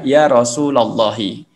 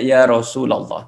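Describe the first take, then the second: First: The vowel after Rasul is a, ending in i. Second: The vowel after Rasul is u, no final i. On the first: "secara kaidah adalah ya Rasulallahi" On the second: "ada yang baca ya Rasulullah"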